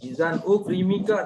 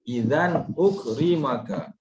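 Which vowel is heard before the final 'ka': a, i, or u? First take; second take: i; a. First: The vowel before the final ka is i. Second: The vowel before the final ka is a. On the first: The speaker calls it wrong. "tak boleh" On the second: The speaker calls it right. "dia automatik baca huruf akhir dia ma"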